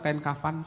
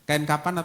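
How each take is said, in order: First: The second word is said with an f sound. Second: The second word is said with a p sound. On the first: "Saya menulisnya pakai F" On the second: "Di Alkitab pakai P ya"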